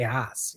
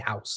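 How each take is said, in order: First: The vowel is a flat East Coast sound. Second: The vowel is a standard 'ow' diphthong. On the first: "I say Haas. ... that's my East Coast speak" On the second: "I don't say house"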